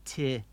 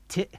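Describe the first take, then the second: First: "Ti" with the vowel left to fade; open ending. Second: "Ti" chopped short by a glottal stop; abrupt cutoff. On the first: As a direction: let "Ti" run on without a stop. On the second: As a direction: cut the vowel of "Ti" dead. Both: Shown as a demonstration. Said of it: "Hear the difference?".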